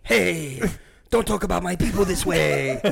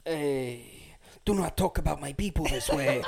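First: Lightly hammed-up Italian accent, a bit sing-song; half-joking Italian mobster accent on the line; mock Italian accent. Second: Mock Italian. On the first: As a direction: replay the line as a mock Italian tough guy, slightly sung. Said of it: "It does sound Italian". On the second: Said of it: "What are you, Italian?".

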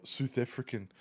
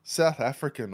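First: Badly faked South African accent on "South African"; poor South African accent. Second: Said in the usual way. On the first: Shown as a demonstration. Showing how flat it is, poor South African accent. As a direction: attempt "South African" with tightened South African vowels. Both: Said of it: "that was a very poor attempt".

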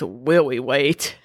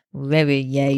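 First: "Willie Wait" with W sound for L; W for L baby talk. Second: "Willie Yates" with Y sound for L; Y for L baby talk. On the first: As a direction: say "Wait" with a W where an L goes. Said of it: "we use W's". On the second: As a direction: say "Yates" with a Y where an L goes. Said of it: "he uses the Y's instead of L's". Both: Shown as a demonstration.

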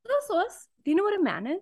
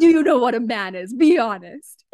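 First: Higher and softer, coaxing question; gentler inquisitive voice. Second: Stern mock interrogation, slightly louder; scary voice. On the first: Pretend. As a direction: ask it sweetly, not scary. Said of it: "No one's gonna wanna answer". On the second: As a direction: play the scary inquisitor. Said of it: "This is my scary voice".

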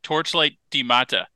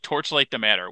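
First: "the matter" said as "di mata"; pidgin pronunciation. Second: Said in the usual way. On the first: Shown as a demonstration. Host shows co-host the article's wording, "the matter" as "di mata". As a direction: say "the matter" pidgin-style, as "dee mah-tah". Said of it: "it says, like, the last part". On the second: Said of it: "And it's like".

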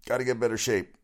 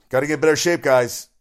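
First: Said in the usual way. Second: Mock yell. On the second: Teasing the security guards who couldn't catch a fan, loud mock yell. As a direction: yell it out like heckling from the stands.

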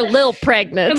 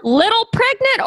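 First: "lil" squeezed into one syllable; slangy one-syllable "lil"; shortened "lil". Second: "Little" said in full with two syllables; careful, complete "Little" before pregnant. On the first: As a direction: drop the middle of little to say "lil". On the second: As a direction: pronounce both syllables of "Little". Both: Shown as a demonstration. Contrasts full word with slang lil.

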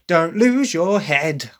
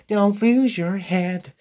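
First: Punchy, slow, sharp line; English take, sharp and punchy; sharp English delivery. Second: Soft, slow and higher; soft version, higher and slow; soft American delivery. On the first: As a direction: snap it like a sassy teen. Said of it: "there's even a sharpness to that". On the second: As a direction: say it gently, no bite. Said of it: "It's, it's very soft". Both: Shown as a demonstration.

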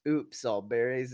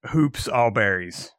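First: "Oops" said with no h, starting on the vowel; Oops All Berries. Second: "Hoops" with a clear h sound at the start; Hoops All Berries. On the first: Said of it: "you mispronounced the name. It's". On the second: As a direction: say "Hoops" with an h, not "Oops". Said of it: "I think you mispronounced the name". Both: Shown as a demonstration.

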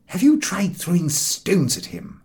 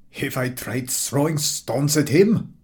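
First: Harris asking. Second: Slow, scornful echo of the question; fed-up man mocking Harris's question; contemptuous. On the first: Acted. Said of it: "asked Harris". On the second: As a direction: throw the question back with contempt. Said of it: "replied the man contemptuously".

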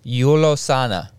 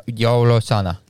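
First: "Yulosana" with a YOO first syllable; first pronunciation attempt. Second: "Yolosana" with a YO first syllable; alternative pronunciation attempt. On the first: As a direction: say "Yulosana" loudly, starting on "Yu". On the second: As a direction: say "Yolosana" loudly, starting on "Yo". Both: Shown as a demonstration. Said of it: "I can't do the accent".

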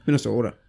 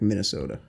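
First: Minnesota accent with a long O in "Minnesota". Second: Said in the usual way. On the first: Shown as a demonstration. Showing a friend an ugly accent, Minnesota accent. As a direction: say "Minnesota" louder, in a put-on Minnesota accent. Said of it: "any of, like, like, Minnesota".

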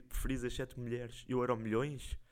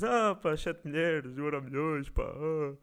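First: Said in the usual way. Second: Mocking tone. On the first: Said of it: "Não era tipo mais fácil dizeres". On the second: Shown as a demonstration. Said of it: "num tom de gozo dizeres".

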